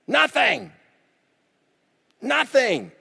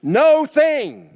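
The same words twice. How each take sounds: First: "Nothing" said high with a hard falling end; emphatic nothing. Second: "No thing" said as two words, NO punched high and loud; stress split NO THING. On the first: Preacher to the church, "Nothing" high and falling. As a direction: land "Nothing" firmly, high then down. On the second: Preacher stressing to the church "No thing" split and punched. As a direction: pull "No thing" apart, hit each word. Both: Shown as a demonstration. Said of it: "we can do what?".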